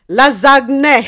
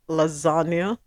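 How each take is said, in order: First: It is said in a Nigerian English accent. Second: It is said in a British English accent. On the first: "the mother is from Nigeria" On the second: "The daughter says"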